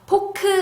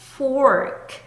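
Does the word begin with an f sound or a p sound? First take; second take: p sound; f sound. First: The word begins with a p-like sound. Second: The word begins with an f sound. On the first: The speaker calls it wrong. "포크 아니고" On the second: The speaker calls it right. "fork 라고 발음하셔야 되고요"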